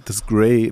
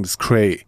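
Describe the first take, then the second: First: "das Grey" pronounced like English grey; pron Grey. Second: "Cray" with a hard K in place of the G; "das Cray" said with a hard Hessian K; pron Cray. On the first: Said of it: "man darf auch nicht sagen". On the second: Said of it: "man muss sagen". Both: Shown as a demonstration.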